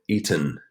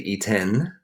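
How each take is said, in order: First: The second syllable has a reduced 'uh' vowel. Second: The second syllable has a clear 'eh' vowel. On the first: The speaker calls it right. "It's like a U, it's uh" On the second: The speaker calls it wrong. "we don't say eaten, right? It's not the eh sound"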